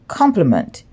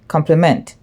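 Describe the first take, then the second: First: The stress is on the first syllable. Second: The stress is on the last syllable. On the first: "This word is pronounced complement" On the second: "in Jamaica we say compliment. So we emphasize the last syllable"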